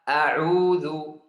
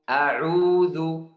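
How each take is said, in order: First: The opening hamzah is light and short. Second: The same.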